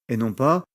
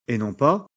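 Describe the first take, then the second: No difference in how they are said.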